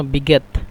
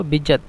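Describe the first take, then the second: First: বিজ্ঞাত said "biget", with a hard g; jim as g. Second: Said in the usual way. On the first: Shown as a demonstration. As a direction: harden the j of বিজ্ঞাত into g. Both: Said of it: "তবে জিমকে গয়ন বলে".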